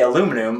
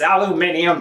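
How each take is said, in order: First: It is said with four syllables, American style. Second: It is said with five syllables, British style. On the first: "if you say aluminum" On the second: "all the Brits are like, oh, it's aluminium"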